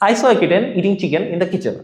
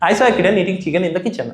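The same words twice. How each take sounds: First: The sentence is said somewhat faster. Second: The sentence is said as fast as possible. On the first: "এবার একটু জোরে বলবো।" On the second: "যতটা জোরে বলা যায়।"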